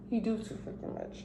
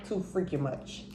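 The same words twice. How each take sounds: First: Whisper. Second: Said in the usual way. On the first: Real, not acted. Repeating the complaint under her breath.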